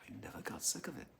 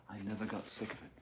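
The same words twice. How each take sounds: First: Quick, very soft whisper; whispering, as if confiding; whispered repeat. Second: Hushed but still voiced; quiet confession. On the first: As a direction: echo it in a whisper. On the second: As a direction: say it softly and quickly. First saying, then whispered repeat. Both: Real, not acted.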